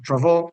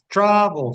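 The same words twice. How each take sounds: First: The stress is on the second syllable. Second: The stress is on the first syllable. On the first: The speaker calls it right. "sino travel, ... la sílaba tónica sería la segunda" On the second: The speaker calls it wrong. "que no es travel"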